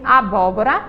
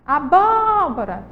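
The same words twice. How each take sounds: First: Said in the usual way. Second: ABÓBORA called slowly, BÓ held long; calling the word out. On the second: Shown as a demonstration. Teacher shows pupils the stressed syllable, long BÓ in abóbora. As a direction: call "abóbora" with a stretched BÓ. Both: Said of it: "Vamos chamar elas".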